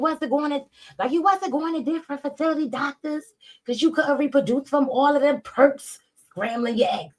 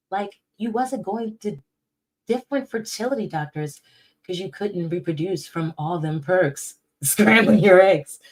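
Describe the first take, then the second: First: High, put-on mocking voice reading a tweet; high sarcastic read of a rival's post; mocking changed voice. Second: Said in the usual way. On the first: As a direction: mimic the tweet in a high, silly voice. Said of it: "not just because I changed my voice". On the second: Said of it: "I can really say it calm still".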